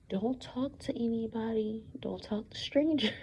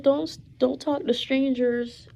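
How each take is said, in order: First: Mother's quiet warning, dropping to a whisper on the second line; hushed warning. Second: Mother's warning, higher and louder. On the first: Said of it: "and she said". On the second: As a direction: say it up high and firm, an insistent mom. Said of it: "She said". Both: Retold or imitated.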